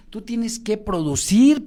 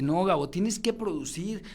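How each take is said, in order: First: Slower and louder on "tú tienes que producir"; emphatic repeat. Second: Said in the usual way. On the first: Retold or imitated. Coach insists he must produce, slow and emphatic. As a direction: press each word of "tienes que producir" slowly and firmly.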